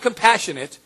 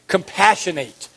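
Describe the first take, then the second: First: It is pronounced as the adjective form. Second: It is pronounced as the verb form. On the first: It describes a quality of someone. The speaker calls it wrong. "Not compassionate" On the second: It names an action done to someone. The speaker calls it right. "It's a verb"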